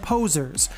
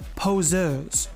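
First: It is said with a plain English pronunciation. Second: It is said with a smug French pronunciation.

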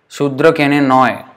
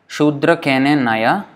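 First: The last word ends in 'oy', final vowel dropped. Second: The last word ends with a full 'a' vowel. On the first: The speaker calls it right. "So the N pronunciation will become like this" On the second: The speaker calls it wrong. "This is how we would probably read it if it was Sanskrit"

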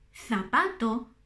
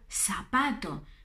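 First: The first sound is a softened Spanish z. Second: The first sound is a plain s. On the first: "Suaviza esa Z" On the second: "Pronunciar la española latinoamericana"

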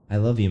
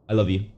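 First: It is said sincerely, from the heart. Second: It is said carelessly, just for saying it.

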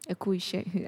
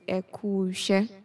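First: The two words are said fully and separately. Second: The vowel is dropped, merging words into one. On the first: "you tell the person eku ishe. Eku ishe. I just said it" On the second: "I replaced I with you. You in the eku. So it's ekuse"

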